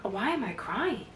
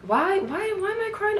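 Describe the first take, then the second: First: Said in the usual way. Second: Imitating herself, baffled. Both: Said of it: "And I'm like".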